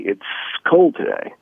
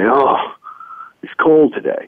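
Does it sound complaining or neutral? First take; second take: neutral; complaining. First: It is said as a neutral statement. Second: It is said in a complaining tone.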